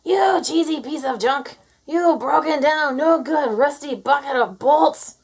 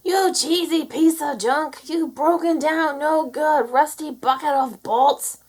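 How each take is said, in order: First: Farmer's angry shout. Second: Loud, high, slow angry insults at the tractor; farmer's angry shout. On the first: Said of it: "Minnie shouted". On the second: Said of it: "The ones the farmer shouts". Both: A narrator's reading. Minnie yelling the farmer's curse at the tractor. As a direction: bellow like a fed-up farmer.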